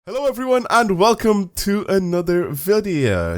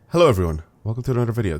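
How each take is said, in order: First: It is said in an odd, unusual accent. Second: It is said in his normal voice.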